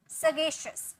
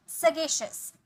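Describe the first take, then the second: No difference in how they are said.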